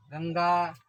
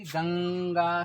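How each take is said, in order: First: Said in the usual way. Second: गंगा drawn out slowly on the nasal ं; nasal sound demonstrated. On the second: Shown as a demonstration. Teacher showing students the anusvara sound, गंगा with lingering nasal. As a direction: stretch the nasal "ng" in गंगा before the final गा. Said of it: "किसका उच्चारण हो रहा है".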